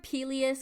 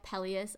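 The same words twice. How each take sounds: First: "Peleus" said with a long EE first; alternative pronunciation of Peleus. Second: "Peleus" said with a short E first; preferred pronunciation of Peleus. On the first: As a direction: say "Peleus" as PEE-lee-us. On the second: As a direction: say "Peleus" as PELL-ee-us. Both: Shown as a demonstration. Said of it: "but I like Peleus a lot more".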